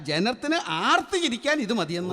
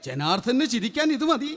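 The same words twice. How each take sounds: First: ജനത്തിന് and ആർത്ത് said as two separate words; correcting, with ആർത്ത് set apart; corrected word break. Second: ജനാർദ്ദന് run into one word like a name; run-together words. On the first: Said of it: "ഓ, അല്ല". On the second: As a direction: slur the word break so it comes out ജനാർദ്ദന്. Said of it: "ജനാർദ്ദനോ?". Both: Acted.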